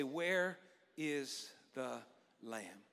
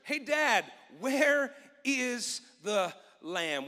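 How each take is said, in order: First: Quiet congregational echo; soft call-and-response. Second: Drawn-out question with weight on where; slow it right down on the key line; slow emphatic question. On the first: Shown as a demonstration. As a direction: lower and softer, fading into lamb. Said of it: "Will you say that with me today". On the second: Acted. Preacher repeats key question slowly.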